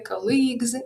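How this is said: It is said with a Ukrainian-influenced pronunciation. The speaker calls it wrong. "we often hear colleagues"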